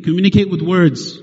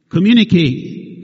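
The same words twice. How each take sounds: First: Said in the usual way. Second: Communicate said slowly, each syllable weighted; slow emphatic. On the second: Shown as a demonstration. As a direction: lean on Communicate like a command.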